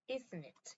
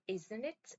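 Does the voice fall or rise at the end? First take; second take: fall; rise. First: The voice falls at the end. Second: The voice rises at the end. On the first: The speaker already knows and seeks agreement. "억양을 내려서 읽어요" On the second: The speaker really wants to check the answer. "억양을 올려서 읽습니다"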